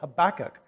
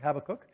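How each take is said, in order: First: The stress is on the second syllable. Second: The stress is on the first syllable. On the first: "it's pronounced with the emphasis on the second syllable" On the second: "some people do pronounce it that way"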